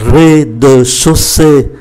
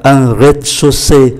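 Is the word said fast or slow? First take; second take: slow; fast. First: The word is said slowly, syllable by syllable. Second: The word is said quickly, syllables run together. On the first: "đọc chậm là" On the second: "Đọc nhanh là"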